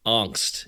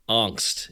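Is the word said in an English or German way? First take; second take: German; German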